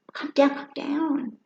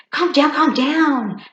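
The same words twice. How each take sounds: First: Slow, higher mock calm-down; mock soothing. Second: Slow, higher and louder calm down; mock calm down. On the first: Teasing someone freaking out, slow mock calm down. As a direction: drawl it out to tease. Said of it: "That's my new joke". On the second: To someone yelling at you, slow loud calm down. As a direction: talk someone down in a big slow voice. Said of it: "you go".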